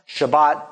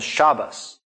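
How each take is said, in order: First: The word ends with a T sound. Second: The word ends with an S sound. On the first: "what would be like a tav or a T sound on the end of a word" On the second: "gets turned into an S sound at the end of a word"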